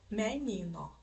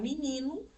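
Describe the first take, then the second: First: The vowels are full, sounding like me-ni-no. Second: The vowels are raised, sounding like mi-ni-nu. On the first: This is the harder, uncommon pronunciation. "do que menino" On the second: This is the easier, everyday pronunciation. "E aí fica mais fácil falar menino"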